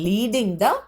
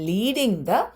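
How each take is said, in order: No difference in how they are said.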